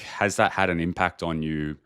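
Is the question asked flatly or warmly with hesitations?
warmly. It is asked warmly, with ums and hesitations.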